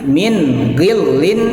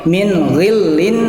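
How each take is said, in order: No difference in how they are said.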